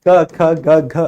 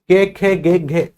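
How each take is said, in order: First: Each consonant is followed by a short 'a' vowel. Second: Each consonant is followed by an 'e' vowel. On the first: The speaker calls it right. "ये केवल का है" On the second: The speaker calls it wrong. "अगर आप ऐसे बोलते हैं इनको"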